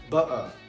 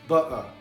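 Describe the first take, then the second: First: The t is dropped. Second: The same.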